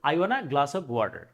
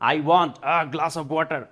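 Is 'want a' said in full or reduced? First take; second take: reduced; full. First: Want a is merged into wanna. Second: Want a is pronounced as two words. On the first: The speaker calls it right. "সুন্দর করে যদি নেটিভদের মতো বলতে চান" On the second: The speaker calls it wrong. "আর আমরা কি বলি?"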